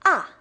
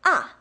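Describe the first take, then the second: First: The pitch falls sharply from high to low. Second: The same.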